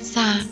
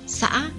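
First: The word carries a low tone. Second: The word carries a broken rising tone. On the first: This is how Thanh Chương people say it. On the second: This is the standard pronunciation.

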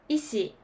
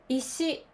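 First: The pitch starts high and falls. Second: The pitch starts low and rises. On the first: This is the Osaka pronunciation. "大阪では高いから低いになります。" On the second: This is the standard Tokyo pronunciation. "これはスタンダード、低いから高い。"

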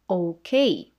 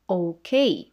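First: It is said with an English pronunciation. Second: The same.

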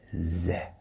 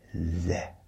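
First: The syllable is said with a short 'eh' vowel. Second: The same.

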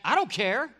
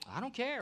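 First: The voice sounds annoyed and sharp. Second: The voice sounds easygoing and relaxed. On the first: The person is upset or giving attitude. "Is that like attitude" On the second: The person genuinely doesn't mind either way. "or is it like, I don't care, like whatever?"

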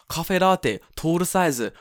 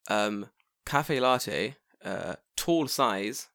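First: It is said with a Japanese accent. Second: It is said with an English accent. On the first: "In Japanese, you go" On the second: "so in English, you'd go"

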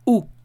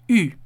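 First: A plain u with the tongue pulled back. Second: A rounded u with the tongue pushed forward. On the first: The speaker calls it wrong. "la U en francés no se pronuncia como una U" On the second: The speaker calls it right. "Es como si hicieras la U, pero en la parte de adelante de los dientes"

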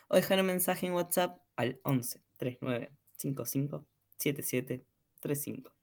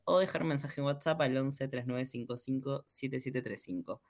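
First: The message line is said slowly. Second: The message line is said fast.

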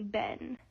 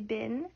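First: The vowel sounds like the one in 'ben'. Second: The vowel sounds like the one in 'bin'. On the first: "people in the north central states near Canada would say ben" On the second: "the majority of people say bin"

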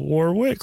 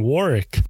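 First: Every letter is pronounced as it is spelled. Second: It is not pronounced the way it is spelled. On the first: The speaker calls it wrong. "like how it's spelled" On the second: The speaker calls it right. "she's saying Warwick"

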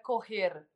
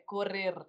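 First: The R is said softly, without a trill. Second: The R is strongly trilled.

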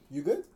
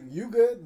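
First: It sounds caring and concerned. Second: It sounds dismissive and confrontational. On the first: Are you okay? "Like, yo, you okay?" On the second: Back off, this is mine. "Like, no. This is my bread"

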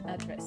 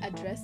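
First: The stress is on the first syllable. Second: The stress is on the second syllable. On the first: It is a noun meaning a location. "and you can send an address" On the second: It is a verb meaning to speak to someone. "You can address someone"

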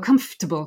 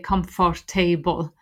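First: The word is shortened with syllables run together. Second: Every syllable of the word is pronounced fully. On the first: The speaker calls it right. "you just hear it go" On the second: The speaker calls it wrong. "People tend to read every syllable"

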